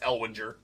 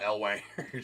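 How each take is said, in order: First: The middle syllable sounds like 'win'. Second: The middle syllable sounds like 'wan'. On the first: The speaker calls it right. "It's Elwinger" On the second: The speaker calls it wrong. "It's not Elwanger"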